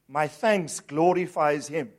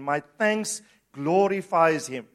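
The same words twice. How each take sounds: First: It is said in a plain, calm way. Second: It is said firmly, with strong conviction. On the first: "Say this with me" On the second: "Say it again with conviction"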